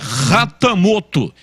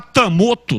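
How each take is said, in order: First: The name begins with a breathy h sound. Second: The name begins directly with a vowel. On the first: The speaker calls it right. "O H com som de R" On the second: The speaker calls it wrong. "Quem fala Atamoto está falando errado"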